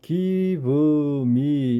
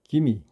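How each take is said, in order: First: Both words are said fully and separately. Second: The words run together into one reduced word. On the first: The speaker calls it wrong. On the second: The speaker calls it right.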